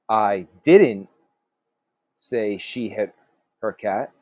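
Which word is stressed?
didn't. The stress falls on the word didn't. The speaker denies having said it. "So maybe you said something something different"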